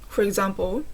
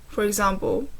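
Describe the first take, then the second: The two takes are said the same way.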